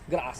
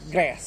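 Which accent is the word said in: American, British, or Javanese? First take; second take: British; American. First: It is said with a British English accent. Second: It is said with an American English accent. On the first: "kalau di Inggris itu disebutnya grass" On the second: "Tapi kalau di Amerika itu uh"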